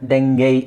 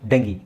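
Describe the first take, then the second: First: It ends in an 'ay' vowel, American style. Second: It ends in an 'ee' vowel, British style. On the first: "Americans ಇದನ್ನು ಡೆಂಗೇಯ್ ಅಂತ ಹೇಳ್ತಾರೆ" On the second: "ಬ್ರಿಟಿಷರು ಇದನ್ನು ಡೆಂಗಿ ಅಂತ ಹೇಳ್ತಾರೆ"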